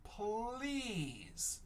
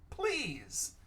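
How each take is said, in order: First: "Please" stretched, softer, gliding down; blended slowly. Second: Said in the usual way. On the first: Shown as a demonstration. Teacher blends the sounds into "Please", slowly stretched. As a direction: draw out the long E in "Please".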